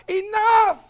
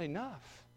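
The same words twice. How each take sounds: First: A high, loud shouted Enough. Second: Quiet. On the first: Preacher voicing the Lord's shout to the congregation, loud and high. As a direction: throw Enough out with full force. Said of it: "He's going to shout". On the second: Preacher giving the Lord's word again, softly and quietly. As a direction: say Enough quietly, almost to yourself. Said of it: "He's gonna shout". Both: Retold or imitated.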